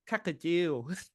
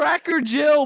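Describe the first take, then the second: First: The name is said in a put-on Asian accent. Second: The name is said in a plain accent.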